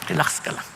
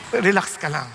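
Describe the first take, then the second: First: Whispered reassurance. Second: Said in the usual way. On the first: Real, not acted. Pastor soothing worried believers, whispered "Relax ka lang". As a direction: hush it gently to calm them.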